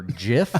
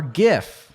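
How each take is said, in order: First: "gif" with a soft g, like "jif". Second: "gif" with a hard g, as in "gift". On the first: Podcaster offers one side of a controversy, "gif" with soft g. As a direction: say "gif" starting with a j sound. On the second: Podcaster offers the rival side of a controversy, "gif" with hard g. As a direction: punch "gif" with a hard g sound. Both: Shown as a demonstration. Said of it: "or which we say".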